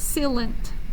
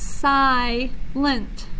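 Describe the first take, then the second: First: The first vowel is a short 'ih' sound. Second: The first vowel is a long 'eye' sound. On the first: The speaker calls it wrong. "not silent" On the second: The speaker calls it right. "it says the long vowel sound, I. That's why it's silent"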